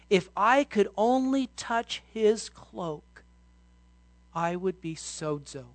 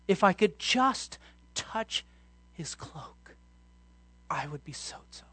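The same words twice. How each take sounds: First: Said in the usual way. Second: Slow, breathy inner thought in a whisper; the woman's secret hope, whispered; hushed whisper. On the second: Acted. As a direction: whisper it to herself, longingly. Woman's inner words said again.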